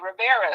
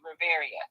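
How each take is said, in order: First: The name is said with three syllables. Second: The name is said with four syllables. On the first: This is how the family says it. "my family, they will say" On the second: This is how the speaker herself says it. "I pronounce it phonetically"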